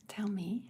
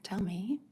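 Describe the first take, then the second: First: Same words, now an unvoiced whisper. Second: Said in the usual way. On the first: Real, not acted. Coaxing a scared viewer to open up, whispered. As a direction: drop to a hush on the repeat. Repeats the request two ways.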